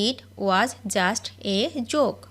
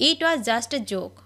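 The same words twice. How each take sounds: First: Very slow, word by word; each word drawn out for learners to copy; slow dictation. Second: Said in the usual way. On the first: Shown as a demonstration. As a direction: spell it out slowly for the class. Repeated slowly for learners.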